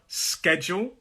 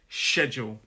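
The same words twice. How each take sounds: First: The word begins with an sk sound. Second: The word begins with an sh sound. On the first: This is the American pronunciation. "I believe in American English, it is sk" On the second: This is the speaker's own pronunciation. "but I say schedule"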